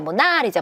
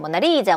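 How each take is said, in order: First: The stress is on the second syllable. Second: The stress is on the third syllable. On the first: "두 번째야" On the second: "세 번째야"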